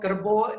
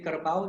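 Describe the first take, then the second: First: It is said with the Baba Malay pronunciation. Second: It is said with the standard Malay pronunciation. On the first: "Kerbo is for the ox" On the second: "We don't say kerbau like the Malays do"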